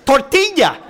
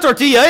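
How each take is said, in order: First: "tortilla" slow and high, mouth stretched wide; drawn-out, over-articulated Spanish "tortilla"; wide-mouthed Spanish pronunciation. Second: "tortilla" said casually in an English mouth; unexaggerated learner's "tortilla"; wrong, narrow pronunciation. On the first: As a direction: exaggerate TORTILLA as tor-TEE-ya. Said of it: "speak real wide with your mouth". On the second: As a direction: say TORTILLA without stretching the mouth. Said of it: "So it's not tortilla". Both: Shown as a demonstration.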